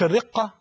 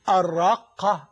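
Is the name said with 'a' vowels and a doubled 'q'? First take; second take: no; yes. First: The vowels are not both 'a' with doubling. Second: Both vowels are 'a' and 'q' is doubled. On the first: The speaker calls it wrong. "مش الرقة كما ينطقها الكثيرون" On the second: The speaker calls it right. "بالفتحة الأولى والثانية مع التشديد"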